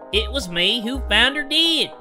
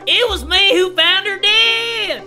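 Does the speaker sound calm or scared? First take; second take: calm; scared. First: The voice sounds calm and unafraid. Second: The voice sounds frightened and scared.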